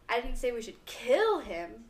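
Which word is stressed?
should. The stress is on "should".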